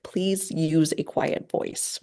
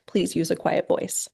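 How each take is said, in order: First: Calm direct request. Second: Said in the usual way. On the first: Shown as a demonstration. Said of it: "a little bit different phrasing". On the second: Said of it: "very clear and very direct".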